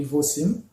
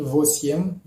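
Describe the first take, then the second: First: "vosim" with a plain "sim" ending; YE read as I. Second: "vosim" said as written, "vo-siem"; spelling pronunciation. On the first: Teacher shows how eight is read, "vosim" ending in "sim". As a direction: reduce the written "ye" to I in "vosim". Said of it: "on lit vosim". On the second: Teacher shows the spelling of eight, said "vosiem" for "vosim". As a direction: sound the "ye" in the last syllable of "vosim", as "vosiem". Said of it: "on écrit vosim". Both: Shown as a demonstration.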